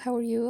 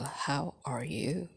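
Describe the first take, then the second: First: It sounds casual and superficial. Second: It sounds sincere and caring.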